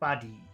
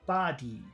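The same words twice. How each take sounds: First: The first vowel is short, the second long. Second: Both vowel sounds are long. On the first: "If we did short long, it would sound like this" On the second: "If we made them both long, it would sound like this"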